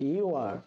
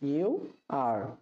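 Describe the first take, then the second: First: The words are joined into one short syllable. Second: Both words are said fully and separately. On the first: "এর contraction হয়ে যাবে" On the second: "সাধারণ ইংরেজি হচ্ছে"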